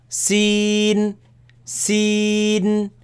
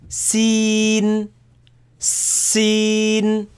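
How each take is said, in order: No difference in how they are said.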